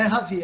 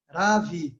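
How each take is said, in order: First: "Ravi" with the initial R as an h sound; Portuguese pronunciation. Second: "Ravi" slowly, with a tongue-tip R and drawn-out first syllable; Sanskrit pronunciation. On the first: Teacher rejecting the local version, "Ravi" with Portuguese h-like R. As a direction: say "Ravi" as Brazilians do, starting like "Ha". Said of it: "Mas não é Ravi". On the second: Teacher correcting the name to Sanskrit, slow "Ravi" with tongue-tip R. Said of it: "é Ravi". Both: Shown as a demonstration.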